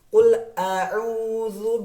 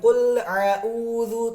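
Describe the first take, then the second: First: The glottal stop is opened clearly before ain. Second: The glottal stop and ain sound run together. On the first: The speaker calls it right. "Dibuka dulu hamzahnya, baru huruf huruf ain" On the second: The speaker calls it wrong. "Bukan dibalik"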